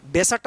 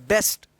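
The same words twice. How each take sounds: First: बेसट broken into two beats, be-sat, with a vowel between s and t; mispronounced बेसट. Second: बेस्ट in one syllable, s running straight into t; बेस्ट with a joined "st" ending; correct consonant cluster. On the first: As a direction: split the final cluster of बेसट with an extra "a". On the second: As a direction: say बेस्ट as "best", no vowel between s and t. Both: Shown as a demonstration. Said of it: "बेसट मत पढ़िएगा".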